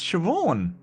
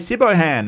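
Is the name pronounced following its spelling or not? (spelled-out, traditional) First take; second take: traditional; spelled-out. First: The name is said not following its letters. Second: The name is sounded out letter by letter. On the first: The speaker calls it right. "no, it's Siobhan" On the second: The speaker calls it wrong. "people say Sibohan"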